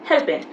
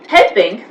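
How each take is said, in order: First: The final g sound is dropped. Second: The final g sound is clearly pronounced.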